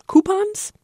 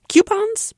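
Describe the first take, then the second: First: Coupons said "KOO-pons", questioning rise; "koo" pronunciation. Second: Coupons said "KYOO-pons", questioning rise; "kyoo" pronunciation. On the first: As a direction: say Coupons with a plain "oo" first syllable, high and asking. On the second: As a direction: say Coupons with a y-glide after the k, high and asking. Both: Shown as a demonstration. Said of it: "how to pronounce the word".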